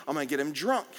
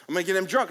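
First: Said in the usual way. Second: Put-on DRUNK hit louder and higher; louder scheming repeat. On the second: Shown as a demonstration. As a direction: lean hard into drunk, louder.

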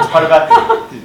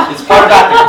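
First: Giggling through the words; high laughing repeat. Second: Laughing. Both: Real, not acted.

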